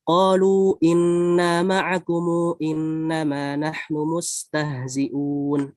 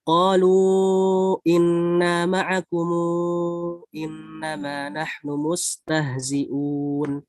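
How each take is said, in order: First: Long vowels held briefly; 'kum' stretched to 'kumu'. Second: Long vowels held longer; 'kum' stretched to 'kumu'. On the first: "qasr ma'a shillah. Ya shillahnya tapi dua harokat aja" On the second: "tawasud munfasil, disertai dengan di sini ada silah. Tapi silahnya di sini dipanjangkan empat harokat"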